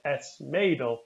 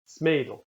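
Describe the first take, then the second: First: The article is said as a full separate word. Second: The article is a bare s joined to the noun. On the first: "you might not say S Mädel" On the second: "as if the S were the start of the word"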